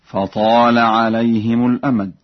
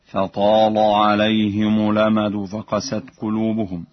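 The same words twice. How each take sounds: First: فطال with a light lam; recited verse. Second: فطال with a thick, heavy lam. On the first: Teacher reciting the verse before explaining, plain lam. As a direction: say فطال with the lam kept thin. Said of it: "قوله تعالى". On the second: Teacher demonstrating the preferred heavy lam to students. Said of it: "بتغليظ اللام ... التغليظ أرجح، هكذا". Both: Shown as a demonstration.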